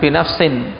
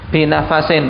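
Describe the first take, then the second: First: No vowel sits between f and s. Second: A short a vowel sits between f and s. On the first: The speaker calls it wrong. "bukan binafsin" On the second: The speaker calls it right. "tapi dengan menfathah, binafasin"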